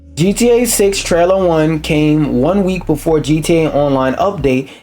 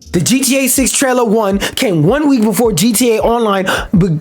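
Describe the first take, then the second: First: It is read in his normal voice. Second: It is read in a conspiratorial tinfoil-hat voice.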